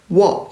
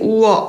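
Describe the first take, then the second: First: It is clipped short as one glide syllable. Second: It is drawn out long as two vowels. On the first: The speaker calls it right. "워 이렇게 하는 겁니다" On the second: The speaker calls it wrong. "길게 우어 이렇게 하는 게 아니라"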